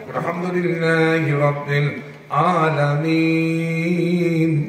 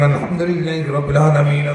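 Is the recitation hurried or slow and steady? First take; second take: slow, steady; hurried. First: It is recited slowly and steadily, without hurry. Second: It is recited quickly, in a hurried flow. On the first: Reading this way would take many years. "এভাবে স্থির ভাবে পড়া যেত" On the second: This is how memorizers recite. "যারা মুখস্থ করে তারা এভাবে তুলতে থাকে"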